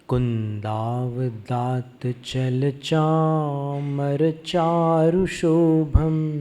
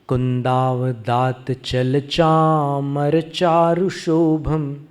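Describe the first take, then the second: First: It is recited at a slow pace. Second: It is recited at a normal, flowing pace. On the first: "अब मंद गति से पाठ करते हैं" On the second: "लय में पढ़ के देखते हैं"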